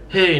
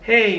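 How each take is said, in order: First: The greeting sounds flat and blunt. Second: The greeting sounds bright and smiling. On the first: The speaker calls it wrong. "So you see how you're very blunt? ... That's your tone" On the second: The speaker calls it right. "rather than, ... Just smile"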